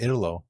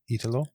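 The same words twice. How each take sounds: First: "Italo" as IH-duh-lo, short first vowel; mistaken pronunciation. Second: "Italo" with a long EE start, as a question; checking a pronunciation. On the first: Host admits calling him this, mistaken pronunciation. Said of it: "I've been saying it wrong". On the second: Host asks guest how the name goes, checking a pronunciation. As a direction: say "Italo" as EE-tlo, unsure if right. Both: Shown as a demonstration.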